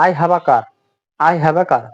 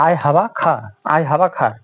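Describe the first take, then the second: First: "car" said with a clear final r, "carr"; r pronounced. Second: "car" said as "kaa", no final r; silent r. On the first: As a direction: end "car" on a sounded r. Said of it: "নিয়ম অনুযায়ী কি হবে". ("car"-এর শেষে আর স্পষ্ট উচ্চারণ করে) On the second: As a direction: drop the r at the end of "car". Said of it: "এখানে কিন্তু কার হচ্ছে না". ("car"-এর শেষের আর বাদ দিয়ে, "কা") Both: Shown as a demonstration.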